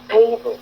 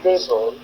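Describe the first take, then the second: First: The stress is on the first syllable. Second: The stress is on the second syllable. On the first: The speaker calls it right. "la bonne façon de dire c'est table ... on accentue le T" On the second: The speaker calls it wrong. "vous avez accentué feuille et vous n'avez pas accentué T"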